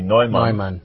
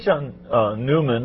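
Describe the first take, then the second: First: The name is said with a German pronunciation. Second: The name is said with an English pronunciation. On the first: The speaker calls it right. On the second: The speaker calls it wrong.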